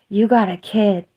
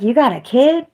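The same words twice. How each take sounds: First: Said in the usual way. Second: Incredulous question. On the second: Retold or imitated. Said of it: "I'm like".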